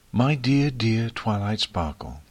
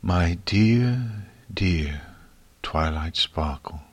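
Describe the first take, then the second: First: Said in the usual way. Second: A grieving voice forcing itself on; weak but determined. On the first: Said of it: "letter read aloud again". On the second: A narrator's reading. Grieving princess begins her last letter to Twilight, weak but determined. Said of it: "in a weak but determined voice".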